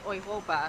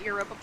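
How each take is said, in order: First: The word begins with an 'oy' sound. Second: The word begins with a 'you' sound. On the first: This is the correct way to say it. The speaker calls it right. "I believe is the correct way to say it" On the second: This is how English speakers say it. The speaker calls it wrong. "English speakers call it Europa Park"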